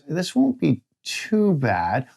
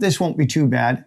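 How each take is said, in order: First: The tone sounds uneasy and worried. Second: The tone sounds light and reassuring. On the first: Something is expected to go wrong. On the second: Nothing is expected to go wrong.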